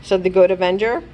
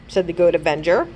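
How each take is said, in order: Both takes have the same delivery.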